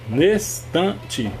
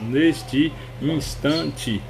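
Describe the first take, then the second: First: The two vowels merge into one, giving three syllables. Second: The two vowels stay separate, giving five syllables. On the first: "formando três" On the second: "separando gramatical, você vai falar neste instante, cinco sílabas"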